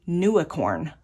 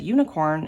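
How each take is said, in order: First: The word starts with a 'noo' sound. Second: The word starts with a 'yoo' sound. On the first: The speaker calls it wrong. "she used to say nuicorn, N U I corn" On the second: The speaker calls it right. "now she's saying it correctly"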